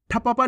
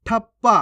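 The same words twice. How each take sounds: First: ठप्पा as tha-pa-paa; full-letter misreading. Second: ठप्पा as thap-paa; half-letter pronunciation. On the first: Teacher warns learners, ठप्पा with full प. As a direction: sound each प fully in ठप्पा. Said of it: "नहीं पढ़ना". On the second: Teacher shows the right reading, ठप्पा with half प. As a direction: hold the doubled प in ठप्पा. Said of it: "कैसे पढ़ेंगे". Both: Shown as a demonstration.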